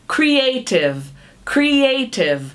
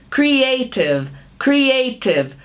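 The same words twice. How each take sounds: The two takes are said the same way.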